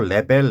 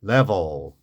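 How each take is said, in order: First: The second vowel is a full clear 'e'. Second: The second vowel is weak and reduced. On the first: "우리 뭐 레벨, 레벨 하는데" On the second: "강세가 없으면요, 약하게"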